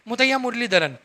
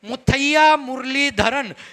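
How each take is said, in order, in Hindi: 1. नाम को अस्पष्ट रूप से बोला गया है और उसे समझना मुश्किल है। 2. नाम को साफ़ और स्पष्ट रूप से उच्चारित किया गया है। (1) "लेकिन वो आप अगले को समझ में नहीं आया" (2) "क्लियर उसका उच्चारण होना चाहिए"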